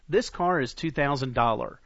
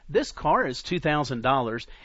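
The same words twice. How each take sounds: First: The last word ends without an s sound. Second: The last word ends with an s sound. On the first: The speaker calls it wrong. "And it drops the S" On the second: The speaker calls it right. "Instead of saying"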